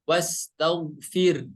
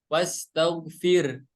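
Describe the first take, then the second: Both takes have the same delivery.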